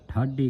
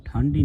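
First: ਠਾਢੀ with no n, thad-dhi; correct, no bindi. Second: ਠਾਢੀ with an n slipped in, thandi; wrong nasal reading. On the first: Teacher corrects the congregation, ਠਾਢੀ without the n. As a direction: keep ਠਾਢੀ free of any nasal sound. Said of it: "ਠਾਢੀ ਕਹਿਣਾ ਹੈ". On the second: Teacher warns the congregation, ਠਾਢੀ misread with an n. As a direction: nasalise the first vowel of ਠਾਢੀ. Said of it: "ਬਿੰਦੀ ਲਾ ਕੇ ਉਚਾਰਨ ਨਹੀਂ". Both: Shown as a demonstration.

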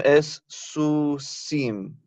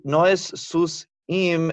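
First: Very slow "su sim", m starts second syllable; right syllable split. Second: Slow "sus im" with s closing the syllable; wrong syllable split. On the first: Teacher slowly modeling correct split. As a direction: draw out "su sim" carefully. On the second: Teacher contrasting wrong split slowly. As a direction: drag out "sus im" as the mistake. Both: Shown as a demonstration.

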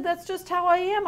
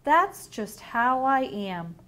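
First: A content sloth, pitched up; higher, cheerful sloth voice. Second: Unhurried, drawn-out reading; slow sloth voice. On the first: Acted. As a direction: say it proudly and lightly. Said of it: "He said". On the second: A narrator's reading. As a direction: let the words drag lazily. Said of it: "the sloth yawned and said".

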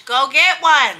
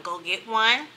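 First: Louder, punchy repeat; emphatic push. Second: Said in the usual way. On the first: Real, not acted. Vlogger urging viewers to buy the hats, emphatic and loud. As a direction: drive the point home to the viewers.

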